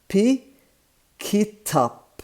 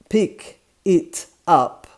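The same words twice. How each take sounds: First: The words are linked into one smooth stretch. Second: The words are said separately.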